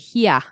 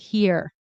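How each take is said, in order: First: The final R sound is dropped. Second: The final R sound is pronounced. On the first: "you'll say "here"" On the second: "instead of "here.""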